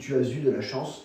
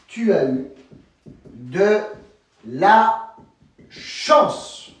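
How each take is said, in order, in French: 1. Un son z fait la liaison entre 'as' et 'eu'. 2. Il n'y a pas de liaison entre 'as' et 'eu'.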